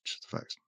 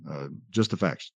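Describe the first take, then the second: First: Breathy whispered echo. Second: Said in the usual way. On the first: Shown as a demonstration. Lecturer echoing positivism's slogan in a whisper.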